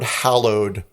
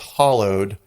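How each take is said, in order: First: The first vowel is as in 'hal'. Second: The first vowel is as in 'hol'. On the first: The speaker calls it right. "she didn't pronounce the word hallowed correctly" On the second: The speaker calls it wrong. "pronounced it as hollowed"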